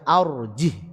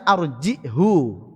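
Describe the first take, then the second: First: The word ends on a silent h, no vowel. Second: The word ends with a short vowel after h. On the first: This is how our narration reads it. "Kita membaca arjih disukun" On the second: This is the original form read in some narrations. "Asalnya arjihu"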